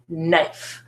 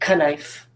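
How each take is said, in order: First: The word begins with an N sound. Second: The word begins with a sounded K. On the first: The speaker calls it right. "The K is quiet in this phonogram" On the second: The speaker calls it wrong. "But do I say knife? Is that what I say? I don't"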